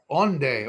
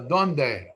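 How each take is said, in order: First: It is pronounced the Ladino way, without d. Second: It is pronounced the standard Spanish way.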